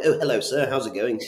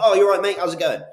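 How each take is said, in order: First: Lightly voiced posh gent, a bit higher; a hint of a polite posh greeting. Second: Loud, much higher broad Bristol greeting; matey Bristol bloke, "you're right, mate" hammed up. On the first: Salesman greeting a posh landlord, mild posh voice. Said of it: "Like Mister Posh". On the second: Salesman matching a Bristol landlord, loud Bristol accent. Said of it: "someone who sounds like me from Bristol".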